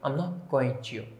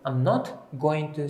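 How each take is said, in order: First: The t at the end of 'not' is dropped. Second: The t at the end of 'not' is pronounced.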